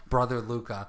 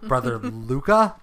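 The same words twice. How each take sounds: First: Said in the usual way. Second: Laughing question. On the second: Real, not acted.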